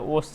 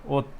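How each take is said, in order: First: The word ends with an s sound. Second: The word ends with a t sound. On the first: The speaker calls it wrong. "ओस चाहिँ हुँदैन" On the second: The speaker calls it right. "यसको सही उच्चारण भयो"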